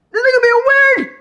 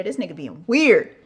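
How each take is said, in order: First: Much higher and louder, a shrill exaggerated cry; hammed-up high screech of disbelief; mock shriek. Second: Said in the usual way. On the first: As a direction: shriek it like you're outraged. Repeats line, then shrieks it.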